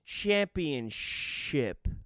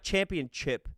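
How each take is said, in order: First: The last syllable begins with a soft 'sh' sound. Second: The last syllable begins with a sharp 'ch' sound. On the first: The speaker calls it right. "The word is championship" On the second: The speaker calls it wrong. "The word's not championship"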